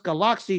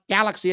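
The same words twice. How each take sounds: First: The name is said with a Thai pronunciation. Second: The name is said with an American pronunciation. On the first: The speaker calls it right. "it's pronounced Galaxy due to the Thailand dialect" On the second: The speaker calls it wrong. "not galaxy as Americans like to say"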